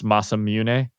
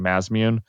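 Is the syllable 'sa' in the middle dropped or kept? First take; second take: kept; dropped. First: The middle 'sa' syllable is kept: Ma-sa-mune. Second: The middle 'sa' syllable is dropped: Maz-mune. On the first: This is the proper pronunciation of the name. The speaker calls it right. "I guess it's Masamune" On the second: This is how players of the original game said it. The speaker calls it wrong. "they used to say Mazmune"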